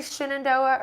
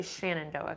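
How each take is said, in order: First: "Shenandoah" with a short i in the first syllable, SHIN-an-DOH-ah; her own pronunciation. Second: "Shenandoah" with a short a in the first syllable, SHAN-an-DOH-ah; hikers' pronunciation. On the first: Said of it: "do you say Shenandoah or do you say". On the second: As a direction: open "Shenandoah" with SHAN, rhyming with can. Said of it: "I hear a lot of A T hikers saying". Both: Shown as a demonstration.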